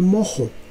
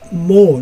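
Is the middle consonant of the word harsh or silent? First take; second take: harsh; silent. First: The middle h sounds like a harsh throaty j. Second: The middle h is silent, with no throaty sound. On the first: This is how it is said in one country. "en Colombia nosotros decimos mojo" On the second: This is how it is said in other places. "en otras partes dicen mo, mo, no pronuncian la H como J"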